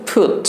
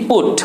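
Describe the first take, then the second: First: ফুট with a strong puff of air on the p; aspirated put. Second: পুট, no puff of air on the p; plain put. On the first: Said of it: "পুট না হয়ে কি হয়?". (জোরে বাতাস ছেড়ে ফুট) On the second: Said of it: "প sound দিয়ে পড়ো". (হাওয়া ছাড়া পুট) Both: Shown as a demonstration.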